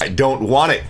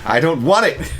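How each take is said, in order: First: It is said in the speaker's ordinary voice. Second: It is said in an imitated comic character voice.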